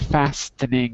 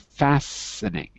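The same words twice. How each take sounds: First: The t sound is pronounced in the word. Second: The t sound is left silent in the word. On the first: The speaker calls it wrong. "You don't say fastening" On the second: The speaker calls it right. "you don't pronounce the T. You say fastening"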